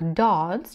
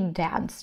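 First: The vowel sounds like a long 'ah'. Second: The vowel sounds like a flat 'eh'. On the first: "через А" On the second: "через Э звук"

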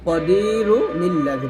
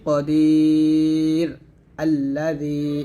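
First: The words run together, linked by an n sound. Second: The first word stops before the second begins. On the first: "যদি আমি ওয়াকফ না ধরি" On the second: "যদি ওয়াকফ ধরি"

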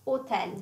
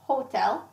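First: The word begins with a silent H. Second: The word begins with an audible H sound. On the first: This is the Italian way of saying it. "but in Italian is hotel" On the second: This is the English way of saying it. "you say hotel"

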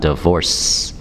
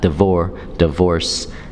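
First: The word ends with a clear s sound. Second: The word ends without a clear s sound. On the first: The speaker calls it right. "and that C-E sound" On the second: The speaker calls it wrong. "Not divorce"

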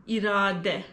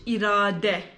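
First: The word ends with a Turkish-style final vowel. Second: The word ends with a Turkish-style final vowel.

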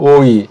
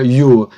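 First: It is pronounced as oi. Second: It is pronounced as yu. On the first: "독일 같은 데서는 이걸 오이라고 발음해요" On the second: "그냥 유라고 하는 것도 좋아요"

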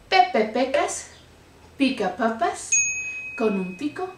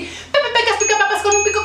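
First: It is said more slowly. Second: It is said fast again.

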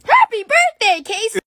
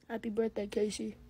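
First: It is said with real enthusiasm. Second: It is said flatly, without feeling.

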